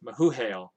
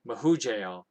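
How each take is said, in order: First: The middle consonant is an H sound. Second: The middle consonant is an English J sound. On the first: This is how the old name was probably said. The speaker calls it right. "I think it's pronounced like the like an H" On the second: This is how English speakers would read it. The speaker calls it wrong. "for us English speakers, we would say Mahujael"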